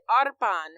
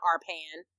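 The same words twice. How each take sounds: First: Arpan with a rolled R and open vowels. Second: Arpan said the English way, flat A and plain R; anglicized name. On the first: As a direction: say Arpan the native way, trilling the R. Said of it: "You ain't had to roll the R like that". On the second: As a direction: say Arpan like an American would. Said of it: "It's not Arpan". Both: Shown as a demonstration.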